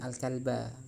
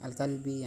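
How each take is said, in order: First: The word ends in an a vowel. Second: The word ends in an i vowel. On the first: The speaker calls it right. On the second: The speaker calls it wrong.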